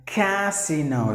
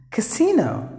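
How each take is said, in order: First: Casino said slowly with a long first A, "kay-SEE-no"; wrong long-vowel casino. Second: Casino said high with a short first A, "kuh-SEE-no"; correct word model. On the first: Retold or imitated. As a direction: imitate the common mistake, stretching the first A. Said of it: "some of the people would pronounce it like". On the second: Shown as a demonstration. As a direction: announce casino with stress on SEE. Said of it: "The next word is".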